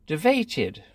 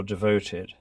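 First: "devoted" with a pinched ay vowel, tee-VAY-tid; "devoted" in nineteen-forties royal RP; old RP devoted. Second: Said in the usual way. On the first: Shown as a demonstration. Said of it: "She seems to say, "devoted" for devoted". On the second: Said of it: "for devoted".

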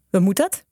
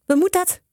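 First: Mildly wary question; slightly suspicious. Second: Much higher, wary repeated demand; suspicious. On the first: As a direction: ask with a touch of distrust. (een beetje wantrouwend) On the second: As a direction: repeat the question, pitched up in distrust. (wantrouwend, met hoge stem) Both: A narrator's reading. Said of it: "een beetje wantrouwend".

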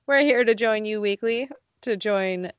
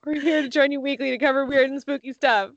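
First: Voice cracking. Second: Said in the usual way. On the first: Real, not acted. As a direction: voice cracks mid-phrase. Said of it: "my voice cracked and it threw me off". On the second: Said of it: "Starting over".

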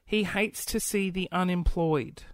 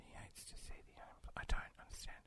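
First: Said in the usual way. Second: "He hates to see the unemployed" barely breathed, unvoiced; confused whispered reread. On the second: Real, not acted. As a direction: whisper the punchline to yourself, puzzling. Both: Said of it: "rereads the joke".

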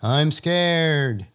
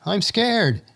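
First: Distant echo of the shout. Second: High fearful shout. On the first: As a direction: call it back like a far-off echo. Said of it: "the voice coming back across the valley". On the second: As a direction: call out in fear across the valley. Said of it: "someone shouts out". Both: Acted.

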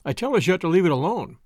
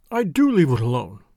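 First: Said in the usual way. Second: "do" leaned on with a falling tune; low, hollow, insisting on "do"; hollow insistence. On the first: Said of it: "spoke in Miss Baedecker's defense". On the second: A narrator's reading. The accused girl insists she does, hollow stress on "do". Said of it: "affirmed the accused hollowly".

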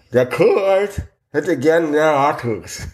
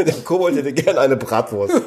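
First: Slow words around a mouth guard; mouthpiece speech. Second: Giggling through the line; laughing. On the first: Acted. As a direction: force it out past a mouthpiece. Reading a card through mouthpiece. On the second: Real, not acted. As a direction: laugh while saying it. Joking guess, laughing.

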